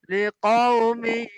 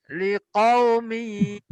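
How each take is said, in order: No difference in how they are said.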